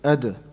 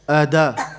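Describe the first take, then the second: First: The final d has a slight echoing bounce. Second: The final d is followed by a full vowel. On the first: The speaker calls it right. "It's in the middle" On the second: The speaker calls it wrong. "Make it like a fatha. Ada. No, that's too much"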